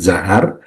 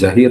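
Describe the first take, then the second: First: The vowel after the h is 'a'. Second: The vowel after the h is 'i'. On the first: The speaker calls it right. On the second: The speaker calls it wrong.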